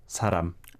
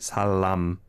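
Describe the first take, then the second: First: The middle consonant is a light flapped R. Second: The middle consonant is a clear L. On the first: The speaker calls it right. "rather than making them too L-like" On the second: The speaker calls it wrong. "The leals here, I feel, are, are too pronounced"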